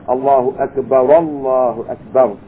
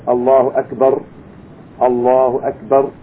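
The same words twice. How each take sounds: First: The phrases are joined with an a vowel. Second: The two phrases are kept separate without a linking vowel. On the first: The speaker calls it wrong. "not a Fatha, which is an A sound" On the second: The speaker calls it right. "if we're going to keep it separate, there's no problem"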